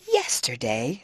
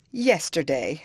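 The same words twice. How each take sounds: First: A low, disbelieving echo of the word "Yesterday"; incredulous. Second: Sobbed. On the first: Scornful echo of "Yesterday". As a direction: Catherine throws "Yesterday" back in disbelief. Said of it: "said her sister-in-law". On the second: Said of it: "sobbed Isabella". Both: A narrator's reading.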